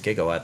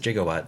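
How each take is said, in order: First: The word begins with a hard G sound. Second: The word begins with a soft J sound.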